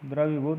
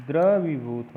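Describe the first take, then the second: First: द्रवीभूत quick, with short "vi"; teacher voicing द्रवीभूत with short vowels; wrong pronunciation. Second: द्रवीभूत with a long "vee"; deliberate long vowels in द्रवीभूत; correct pronunciation. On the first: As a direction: pass lightly over the middle of द्रवीभूत. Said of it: "नहीं". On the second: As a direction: stretch द्रवीभूत as "dra-vee-bhoot". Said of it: "वो पर बड़ी का वही होता है". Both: Shown as a demonstration.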